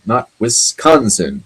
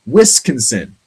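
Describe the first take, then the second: First: Wisconsin said the standard way, slow and careful; correct pronunciation. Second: Wisconsin said the way Stewart said it on set; Stewart's pronunciation. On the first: Shown as a demonstration. Host correcting Stewart's version with a slow, careful Wisconsin. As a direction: slowly give the right Wisconsin. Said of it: "thinks the state ... pronounced". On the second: Retold or imitated. [name] imitating how Stewart said the state name, Wisconsin. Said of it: "when you said this state name".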